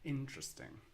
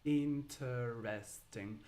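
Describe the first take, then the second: First: It is said with three syllables. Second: It is said with four full syllables. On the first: The speaker is talking naturally. The speaker calls it right. "if you're speaking naturally and fluently, you would say interesting" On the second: The speaker is joking or having fun. The speaker calls it wrong. "But it's never interesting, unless you are uh, making a joke"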